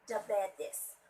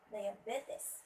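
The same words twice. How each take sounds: First: The stress is not on the third syllable. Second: The stress is on the third syllable. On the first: The speaker calls it wrong. "which is wrong" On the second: The speaker calls it right. "the stress word is should be at the third syllable"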